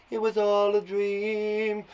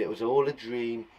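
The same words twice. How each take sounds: First: High, slow, drawn-out dream voice; mock dream-sequence chant; dreamy echo. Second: Said in the usual way. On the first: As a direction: float it out, stretching the last word. Echoes ending as dream effect.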